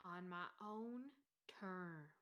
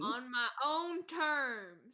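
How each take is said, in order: First: Low, very soft trailing repeat; quiet repeat. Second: Drawn-out, stubborn declaration; insistent declaration. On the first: Sleeper repeating his own terms to himself, low and quiet. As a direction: say it far softer and lower, trailing away. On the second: Sleeper answering talk of his own terms, drawn-out and insistent. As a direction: stretch out every word stubbornly. Defiant echo of the game master. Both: Acted.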